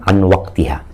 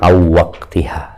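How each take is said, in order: First: The n sound is kept before the w. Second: The n sound merges nasally into the w. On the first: It is read as ordinary spoken Arabic. "bacanya an waqtiha" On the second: It is read with Quran recitation rules. "kalau membaca Al-Quran jadinya aw waqtiha"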